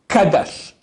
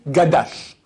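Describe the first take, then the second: First: The word begins with a K sound. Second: The word begins with a G sound. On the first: The speaker calls it right. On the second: The speaker calls it wrong.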